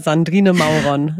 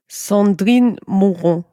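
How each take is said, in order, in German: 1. Der Name wird auf deutsche Art ausgesprochen. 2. Der Name wird auf französische Art ausgesprochen. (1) "oder eben auch Alman Saskia"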